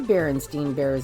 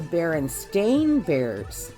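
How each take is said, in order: First: The name ends in 'stein'. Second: The name ends in 'stain'. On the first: This is the remembered older name. "they aren't the Berenstain Bears anymore... Not what I remember being S T E I N" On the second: This is the name as it is now. "They are now the Berenstain Bears... B E R E N S T A I N"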